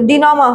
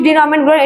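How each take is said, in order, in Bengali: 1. শব্দটি একটি খোলা স্বরধ্বনি দিয়ে শেষ হয়। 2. শব্দটি 'ment' ধ্বনি দিয়ে শেষ হয়। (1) "এটা হচ্ছে ডিনোমা হবে" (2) "এটা উচ্চারণটা ডিনোমেন্ট ডিনোমেন্ট"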